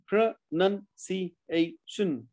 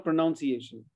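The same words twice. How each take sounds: First: PRONUNCIATION very slowly in pieces: pro, nun, ci, a, tion; syllable by syllable. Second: PRONUNCIATION misspoken as "pro-NOUN-ciation"; mistaken pronunciation. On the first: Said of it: "not pronounce". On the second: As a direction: say pronunciation with "noun" inside, as the error. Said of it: "not pronunciation". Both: Shown as a demonstration.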